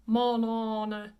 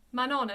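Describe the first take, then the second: First: Manon drawn out as "mahn-ON-uh"; heavy nasal vowels in both halves of Manon; wrongly nasalized Manon. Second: Manon as "ma-NON" with clear n; unnasalized Manon. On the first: Teacher shows students the mistaken version, over-nasalized. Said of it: "instead of". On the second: Teacher contrasts it with the mistake, no nasalization. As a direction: keep both vowels of Manon free of nasality. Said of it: "There would be no nasalization". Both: Shown as a demonstration.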